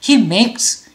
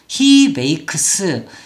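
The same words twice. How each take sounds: First: Makes is said as a single syllable. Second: Makes is stretched into extra syllables. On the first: The speaker calls it right. "이름절로 소리를 내서" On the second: The speaker calls it wrong. "이렇게 소리를 내는 경우 이거 옳지 않아요"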